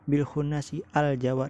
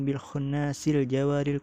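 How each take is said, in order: First: The words break apart with a separate 'al'. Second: The words run together through a linking 'l' sound. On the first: The speaker calls it wrong. "jangan kayak itu" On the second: The speaker calls it right. "jadi membacanya tuh disambung"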